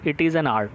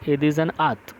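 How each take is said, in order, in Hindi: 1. यह अंग्रेज़ी उच्चारण में बोला गया है। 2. यह जर्मन उच्चारण में बोला गया है। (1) "इन इंग्लैंड इसको कहेंगे" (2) "बट इन जर्मन"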